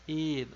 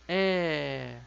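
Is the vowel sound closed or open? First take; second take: closed; open. First: The vowel is said closed. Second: The vowel is said fairly open. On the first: The speaker calls it wrong. "Não é um som de E, E, um som fechado" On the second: The speaker calls it right. "o som dela é um som de E"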